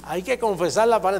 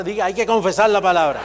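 First: Said in the usual way. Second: "confesar" pushed out louder, laughing a little; louder declaration. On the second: Shown as a demonstration. Preacher urges the church to say "confesar la palabra" aloud. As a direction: proclaim "Diga, hay que confesar la palabra" louder.

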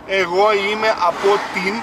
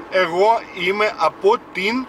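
No difference in how they are said.

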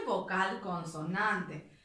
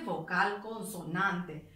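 First: "vocal, consonante" said slow and falling, each word apart; slow emphatic listing. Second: "vocal, consonante" slowed and falling, each word set apart; slow emphatic listing. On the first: ("vocal, consonante" lento y marcado) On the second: ("vocal, consonante" pausado y enfático) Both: Shown as a demonstration.

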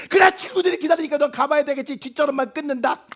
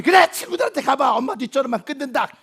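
First: Guilt-trip him as you hang up; huffy hang-up. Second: Huffy hang-up. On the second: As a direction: slam the conversation shut. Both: Acted. Mother hangs up in a huff.

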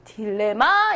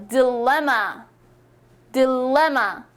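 First: 딜레마 in even Korean syllables, first one full; Korean-style 딜레마 offered as a mistake; wrong stress, questioned. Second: 딜레마 English-style, middle 레 punched; di-LEM-ma, weak first syllable; stress on 레. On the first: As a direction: say 딜레마 without the English middle punch. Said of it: "이거입니까". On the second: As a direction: drill 딜레마 hitting 레 hard. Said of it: "레 이렇게 강세를 주시는". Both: Shown as a demonstration.

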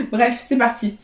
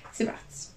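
First: Said in the usual way. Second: Whispered launch; breathy whisper to start. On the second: Real, not acted. Launching a scratch card.

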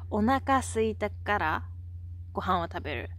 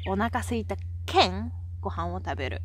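First: Said in the usual way. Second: Hakata-ben, the "県" ending set apart; teacher's demonstration of Hakata dialect. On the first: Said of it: "Instead of saying that". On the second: Shown as a demonstration. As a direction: stretch "県" as a clear "keng" before going on. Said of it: "we say".

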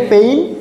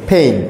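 First: "পেইন" with an unaspirated p, rising; no puff of air on "পেইন"; old habitual pronunciation. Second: "পেইন" with a puffed ph and ei glide; falling "পেইন", breath released after the p; aspirated P. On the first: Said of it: "আমরা বলতাম পেইন". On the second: Teacher models the word for students, "পেইন" with aspirated p. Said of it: "একটু হয়ের প্রভাবটা থাকে". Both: Shown as a demonstration.

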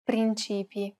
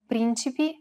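First: "principi" stressed on CI, with that vowel lengthened; "principi" with a long, strong CI; stress on middle syllable. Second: "Principi" stressed on the opening PRIN; "Principi" with PRIN strong and ci-pi light; stress on first syllable. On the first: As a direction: lean on the middle, prin-CI-pi, in "principi". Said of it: "which would otherwise appear the same". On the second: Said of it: "help the reader distinguish between two words". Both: Shown as a demonstration.

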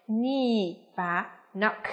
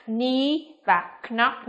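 First: Said in the usual way. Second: Knee and knock each with an audible K before N; K pronounced. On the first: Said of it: "mà phải là gì nào?". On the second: Shown as a demonstration. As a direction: say "knee" and "knock" wrongly as "k-nee", "k-nock". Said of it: "không được phát âm là gì". (đọc sai "knee", "knock", bật rõ âm k đầu)

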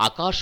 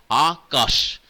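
First: Said in the usual way. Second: Akash slowed, with কাশ hit loud; stress on কাশ. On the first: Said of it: "কোনো একটি দল জোর দিয়ে উচ্চারণ". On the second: Shown as a demonstration. Teacher showing students syllable stress, কাশ in Akash said forcefully. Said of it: "এই দলটির উপরে জোর দিয়ে উচ্চারণ করলে".

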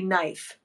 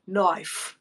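First: Said in the usual way. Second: "Knife" as Aussie "noife"; Australian "Knife", rounded i; Australian accent. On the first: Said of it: "Say knife". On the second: Shown as a demonstration. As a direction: say "Knife" with a broad Australian vowel. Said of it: "Yeah, there you go".

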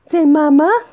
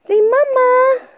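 First: Said in the usual way. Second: Mama sung high and louder; high, louder sing-song demo. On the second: Shown as a demonstration. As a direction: lift the whole line high and loud for the baby.

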